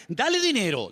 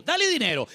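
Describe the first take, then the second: First: Said in the usual way. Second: "dale dinero" repeated higher, pushing "dale"; dale raised higher. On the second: Shown as a demonstration. Preacher to congregation, pushes "dale" higher on the echo. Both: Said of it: "repeated for emphasis".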